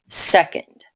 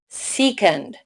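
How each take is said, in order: First: The first vowel is short. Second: The first vowel is long. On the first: The speaker calls it right. "make the first vowel short" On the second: The speaker calls it wrong. "If we did it like Rule eight, it would say second"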